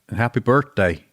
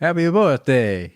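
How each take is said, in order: First: Said in a put-on Australian accent. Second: Said in a put-on Italian-sounding accent. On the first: "You got some type of Australian" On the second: "That was Chef Boyardee if I've ever heard it, or Mario"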